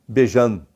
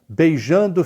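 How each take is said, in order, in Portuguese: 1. A palavra termina com um som de mm cortado. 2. A palavra termina com o som completo de -ndo. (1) "E se for em Minas" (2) "beijando fica"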